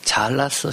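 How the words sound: It is said in a mocking, sarcastic tone. The person actually did badly. "정말 못했는데 진짜 비꼬듯이"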